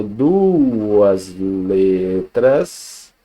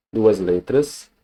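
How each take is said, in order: First: "duas letras" very slowly, every vowel stretched; long, held vowels on "duas letras"; drawn-out emphasis. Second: Said in the usual way. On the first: Shown as a demonstration. Teacher drives home the definition.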